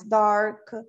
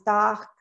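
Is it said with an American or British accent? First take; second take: American; British. First: The R is strong and curled, American style. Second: The R is dropped and open, British style.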